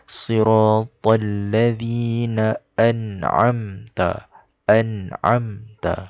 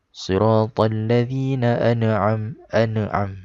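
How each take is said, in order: First: Read carefully, with a clean nun and no bounce. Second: Read fast, with a bouncing sound after the nun. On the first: The speaker calls it right. "Kita kena sebut segetul-segetul kat sini" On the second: The speaker calls it wrong. "kalau orang tu dia baca laju ... Seolah-olah macam nun tu ada qalqalah"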